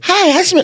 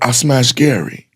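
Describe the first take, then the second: First: It is said in a cute put-on voice. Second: It is said in a heavy put-on voice.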